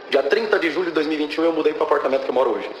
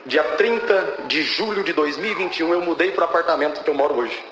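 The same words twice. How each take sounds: First: Said in the usual way. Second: Measured, spaced-out statement of the date; deliberate emphasis. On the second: Real, not acted. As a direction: take the date piece by piece for weight. Date said twice, first deliberately. (data dita pausadamente, com ênfase)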